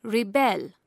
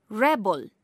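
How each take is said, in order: First: Ri-BEL, weight on the last syllable; second-syllable stress. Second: REB-el, short e, weight up front; first-syllable stress. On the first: Teacher showing verb stress to learners, second-syllable stress. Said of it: "stress is placed on the second". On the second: Teacher showing noun stress to learners, first-syllable stress. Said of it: "stress is placed on the first syllable". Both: Shown as a demonstration.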